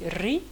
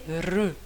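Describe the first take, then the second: First: The vowel is said with a high i sound. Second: The vowel is said with a sound between. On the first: The speaker calls it wrong. "vont prononcer ri" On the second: The speaker calls it right. "c'est ni ru ni ri, elle est re. Donc c'est une chose entre les deux"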